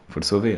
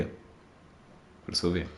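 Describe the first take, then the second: First: Said in the usual way. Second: "sauver" whispered slowly and softly. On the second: Real, not acted. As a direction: breathe "Faut le sauver" slow, no voice.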